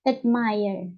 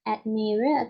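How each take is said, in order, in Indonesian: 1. Suku kata kedua terdengar seperti 'mire'. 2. Suku kata kedua tidak terdengar seperti 'mire'. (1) "Jadi mirror-nya itu seperti mire" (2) "bukan admire"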